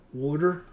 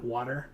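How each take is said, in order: First: "Water" with a "wood"-like first vowel, loud; New Jersey pronunciation. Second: Said in the usual way. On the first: Shown as a demonstration. Player showing how coworker says it, "Water" as "wooder". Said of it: "she calls water". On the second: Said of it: "And not water".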